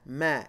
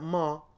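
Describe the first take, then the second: First: The vowel is said with spread, smiling lips. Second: The vowel is said with rounded, darker lips. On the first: The speaker calls it right. "You're smiling" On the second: The speaker calls it wrong.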